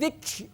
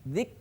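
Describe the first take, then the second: First: The final k has a heavy burst of air. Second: The final k has a light puff of air. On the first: The speaker calls it wrong. "nah itu namanya berlebihan" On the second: The speaker calls it right. "ada desis, ada hamas"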